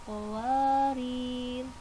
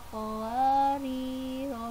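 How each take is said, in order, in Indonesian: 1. Kata itu diakhiri dengan konsonan mati. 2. Kata itu diakhiri dengan vokal pendek. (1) "nah ini pas ro-nya harus disukun" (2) "Jika diwasol maka ro-nya dibaca pendek"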